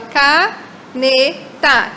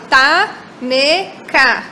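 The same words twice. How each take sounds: First: Caneta said slowly, each syllable clear, falling at the end; slow demo word. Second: Slow reversed word. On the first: Teacher modelling the original word for the kids, slowly. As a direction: spell out caneta slowly in sound, ca-ne-ta. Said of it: "Essa é a importância". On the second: Teacher modelling the swapped-syllable word for the kids, slowly. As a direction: lay out taneca slowly so the swap is heard. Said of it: "depois eu falo taneca". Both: Shown as a demonstration.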